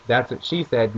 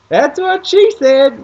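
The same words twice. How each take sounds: First: Said in the usual way. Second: High, loud, slow put-on voice for dad; dad's voice. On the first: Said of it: "because he said". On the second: Imitating dad cracking a joke at the casino, high and loud. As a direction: ham up the dad's punchline. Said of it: "my dad's like".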